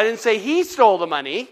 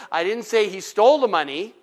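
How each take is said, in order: First: "he" lifted and leaned on; stress on he. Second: "stole" lifted and leaned on; stress on stole. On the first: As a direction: hit "he" hardest in the sentence. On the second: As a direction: hit "stole" hardest in the sentence. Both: Shown as a demonstration. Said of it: "put the emphasis somewhere else".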